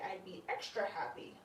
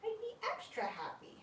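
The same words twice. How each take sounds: First: Said in the usual way. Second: I'd be extra happy in a much higher, softer squeak; squeaky voice. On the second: Shown as a demonstration. Owner repeating her wish to the glider, high and soft. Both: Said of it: "repeats line in a new voice".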